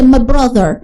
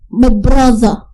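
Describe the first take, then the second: First: It is said in an American accent. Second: It is said in a British accent. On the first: "Orang Amerika menyebutnya brother" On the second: "Tapi kalau British itu"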